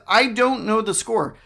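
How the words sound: It sounds reluctant, discouraging an answer. The speaker does not want to be told the score. "You could probably hear from my tone, I don't want to know the score"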